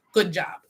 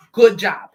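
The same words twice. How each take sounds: First: Said in the usual way. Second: A loud, booming sarcastic "Good job"; loud mock praise. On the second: Reader cheering the querent for cutting them off, loud mock praise.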